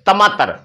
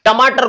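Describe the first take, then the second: First: Lightly imitating a lisping toddler on टमाटर; child's lisp. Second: Said in the usual way. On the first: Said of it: "छोटे बच्चे तुतलाते हैं". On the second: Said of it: "वो क्या बोलते हैं".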